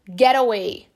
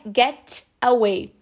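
First: It is said in an American accent, R-like T. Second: It is said in a British accent, crisp T. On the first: "Um americano" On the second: "Um britânico falaria get away"

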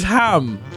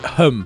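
First: The vowel is a full, open 'a' sound. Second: The vowel is a short, reduced 'uh' sound. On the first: This is how the place-name ending is written. "If it's ham" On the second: This is how the place-name ending is usually said. "then it's hum, usually"

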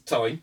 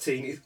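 First: The ending rhymes with 'sign'. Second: The ending rhymes with 'seen'. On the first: This is the way the character himself says it. The speaker calls it right. "he actually says it is pronounced time... It's time" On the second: This is the common American way of saying it. The speaker calls it wrong. "Which everyone keeps going, it's teen. It isn't"

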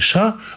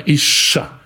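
First: The sh sound is short and single. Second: The sh sound is doubled and held longer. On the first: The speaker calls it wrong. "Правильно читать не «иша»" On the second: The speaker calls it right. "Она говорит об удвоении буквы. Правильно читать ... а «иша»"

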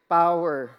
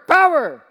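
First: It is said weakly, without force. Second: It is said loudly and forcefully.

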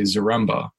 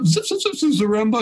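First: The name is said in a plain, normal voice. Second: The name is said like a scratching record. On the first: "they would not say it like that" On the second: "like they were scratching a record"

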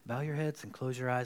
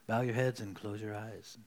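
First: It is said in a plain, normal voice. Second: It is said in a put-on preacher voice.

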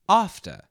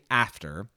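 First: The word is said with a British vowel. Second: The word is said with an American vowel. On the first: The speaker calls it right. "you'd say after" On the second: The speaker calls it wrong. "you wouldn't say after"

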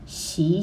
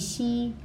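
First: The pitch rises from mid to high. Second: The pitch stays high and level.

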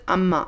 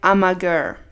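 First: The final letters are dropped, leaving two syllables. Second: Every written letter of the name is pronounced. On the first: The speaker calls it right. "And you pronounce it Amma" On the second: The speaker calls it wrong. "Amma is written A-M-A-G-E-R. Like Amager"

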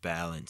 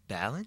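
First: The voice goes down at the end. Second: The voice goes up at the end. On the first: The speaker is stating it firmly. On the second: The speaker is asking. "question mark"

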